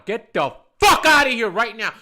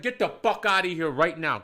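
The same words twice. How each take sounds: First: Loud, furious blast on the curse; screamed order. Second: Firm, contained first command; angry order. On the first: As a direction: scream someone out of the bar. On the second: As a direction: order someone out, holding back the full scream. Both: Retold or imitated. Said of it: "watching me scream at a woman".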